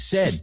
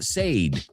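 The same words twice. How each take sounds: First: The vowel is short, like 'sed'. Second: The vowel is long, like 'sayd'. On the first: The speaker calls it right. "It's said. Tengo sed. I said" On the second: The speaker calls it wrong. "The past tense is not said"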